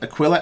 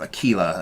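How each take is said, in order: First: It has an English-style pronunciation, unlike tequila. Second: It is pronounced so it rhymes with tequila. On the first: "as in like the English pronunciation" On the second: "as in you know tequila"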